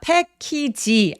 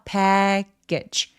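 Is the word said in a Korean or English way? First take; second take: Korean; English. First: It is said as Korean syllables, pae-ki-ji. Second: It is said as two English syllables. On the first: The speaker calls it wrong. "패키지 아니에요" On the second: The speaker calls it right. "요 소리가 두 개거든요"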